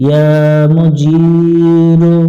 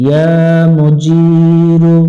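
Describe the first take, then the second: No difference in how they are said.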